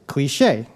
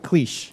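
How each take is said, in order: First: The final E is pronounced as a vowel. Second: The final E is left silent. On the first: The speaker calls it right. "you would say cliché" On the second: The speaker calls it wrong. "tells me not to pronounce it cliche"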